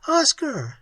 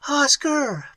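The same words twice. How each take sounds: First: Cry out. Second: Scream. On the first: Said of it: "she cried". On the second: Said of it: "Pat screamed". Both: A narrator's reading.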